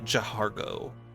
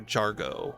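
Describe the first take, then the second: First: The H is sounded as an extra syllable. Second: The H is silent, giving two syllables.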